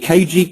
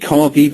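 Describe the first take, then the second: First: It is spelled out as two separate letters. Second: It is said as one word, sounding like car-gee. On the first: "we can call it K G" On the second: "that'll be my British accent"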